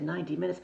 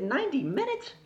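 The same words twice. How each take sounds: First: Said in the usual way. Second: High, incredulous question; shocked echo. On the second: Retold or imitated. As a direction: echo it back in disbelief, pitch shooting up. Her shocked echo of the answer.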